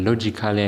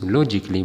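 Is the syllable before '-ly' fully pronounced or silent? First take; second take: pronounced; silent. First: An extra 'a' syllable is said before '-ly'. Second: No extra syllable is said before '-ly'. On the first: The speaker calls it wrong. "በተለምዶ በሀገራችን የተለመደው ሎጂካሊ ይባላል። ሎጂካሊ አይባልም" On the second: The speaker calls it right. "ሎጂክሊ ነው የሚሉት እነሱ"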